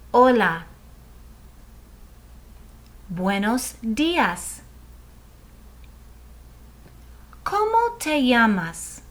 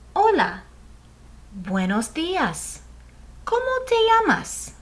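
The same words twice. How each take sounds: First: It is said slowly. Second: It is said at normal speed.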